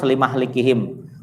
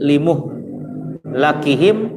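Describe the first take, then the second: First: The m has an a, the l an i. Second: The m has a u, the l an a. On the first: The time of their destruction was appointed. "Kalau hafaz limah likihim" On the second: The process of their destruction was appointed. "bidomil mim wa fathil lam"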